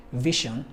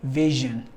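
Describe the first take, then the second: First: VISION with an sh, "VISH-un"; voiceless sh. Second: VISION with a buzzing zh, "VIZH-un"; voiced zh. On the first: Teacher showing what it's not, VISION with sh. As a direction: unvoice the middle of VISION to sh. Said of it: "It's not". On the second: Teacher giving the correct form, VISION with zh. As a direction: voice the middle of VISION as zh. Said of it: "but vision". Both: Shown as a demonstration.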